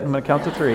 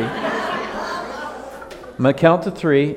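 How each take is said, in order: First: Said in the usual way. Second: Very slow, drawn-out count warning with a laugh; stretched out slowly. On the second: Shown as a demonstration. Pastor teasing the congregation, very slow with a laugh. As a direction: drag every word out playfully.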